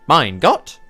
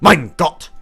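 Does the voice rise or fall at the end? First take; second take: rise; fall. First: It rises at the end like a question. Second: It falls at the end like an exclamation.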